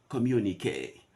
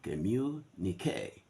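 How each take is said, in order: First: Communique with the stress on the second syllable, com-MU-ni-que; UK pronunciation. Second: Communique slow, stress on the last syllable, communi-QUE; American pronunciation. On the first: Teacher contrasts UK and US communique, British stress. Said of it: "This is how they will speak it in the U K". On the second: Teacher contrasts UK and US communique, American stress. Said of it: "this is how they will speak it in the States". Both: Shown as a demonstration.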